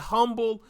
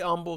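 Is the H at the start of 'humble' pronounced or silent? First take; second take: pronounced; silent. First: The word begins with an audible H sound. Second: The word begins without an H sound. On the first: "Some people say humble" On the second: "silent H and all that stuff"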